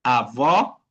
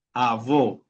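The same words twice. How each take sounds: First: "avó" with an open, rising final o; outward open vowel. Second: "avó" with a closed, falling final o; inward closed vowel. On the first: Teacher explaining the acute accent, open final vowel on "avó". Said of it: "una fuerza de voz para afuera". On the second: Teacher showing the other accent, closed final vowel on "avó". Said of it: "otra cosa es decir avó". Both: Shown as a demonstration.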